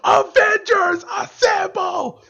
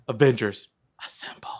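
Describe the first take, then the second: First: It is screamed loudly, like a crowd. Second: It is said quietly, almost whispered.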